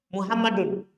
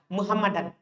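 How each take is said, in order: First: The word ends with an u-sound vowel. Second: The word ends with an a-sound vowel. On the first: The word is the subject of the sentence. "dibaca dhammah" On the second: The word is the object of the sentence. "dibaca fathah"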